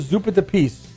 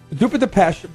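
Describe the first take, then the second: First: The last word ends with a z sound. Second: The last word ends with an sh sound. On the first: The speaker calls it wrong. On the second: The speaker calls it right.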